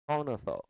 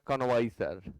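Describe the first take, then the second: First: It is said with no 'v' sound. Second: It is said with a 'vai' syllable. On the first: The speaker calls it right. "आप पढ़ें कौन सा" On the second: The speaker calls it wrong. "लोग पढ़ते हैं कन्वाइसर, गलत है"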